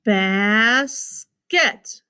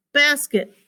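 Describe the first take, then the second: First: BASKET as a long "basss", then "ket"; split into syllables. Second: Said in the usual way. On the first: Shown as a demonstration. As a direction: stretch and separate both syllables of "basket". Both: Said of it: "Two syllables".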